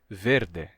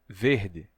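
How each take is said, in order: First: The final vowel is e, with a plain r. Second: The final vowel is i, with a changed r. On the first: This is how some other speakers say it. "Alguns falantes de português até hoje pronunciam verde, desse jeito. Não no meu sotaque" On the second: This is the speaker's own accent. "No meu sotaque, o som de r em final de sílaba se torna r, e o som de e em posição final se torna i"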